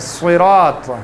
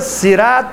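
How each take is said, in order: First: The first s sound is heavy and thick. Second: The first s sound is light and thin. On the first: The speaker calls it right. "اس کو موٹا پڑیں گے" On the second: The speaker calls it wrong. "ہم کو صراط نہیں پڑھیں گے"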